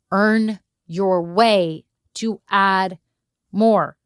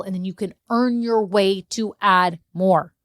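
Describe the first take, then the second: First: Each word slowed and leaned on; slow, emphatic repeat. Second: Said in the usual way. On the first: Shown as a demonstration. Coach repeating the key advice to listeners, slow and emphatic. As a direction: spell out "Earn your way to add more" slowly.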